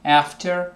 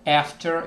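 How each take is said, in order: First: It is said in an American accent. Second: It is said in an American accent.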